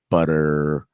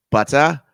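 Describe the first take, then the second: First: Low American BUTTER with a drawn-out r; American accent. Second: Higher, louder mock-English BUTTER, no r; English accent. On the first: Retold or imitated. Host repeating the teacher's contrast, American accent. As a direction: stretch the final r of butter, American style. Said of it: "difference between American and English accent". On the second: Host repeating the teacher's contrast, English accent. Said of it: "but he's like".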